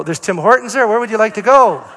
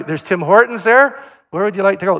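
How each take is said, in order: First: Higher, louder, with a laugh; amused pointed hint to a grandson; laughing hint again. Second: Higher and louder, leaning on "there"; teasing loud hint to a grandson; pointed hint. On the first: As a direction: push the hint while laughing. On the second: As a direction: nudge the kid toward Tim Hortons. Hinting repeatedly, mock insistent. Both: Retold or imitated.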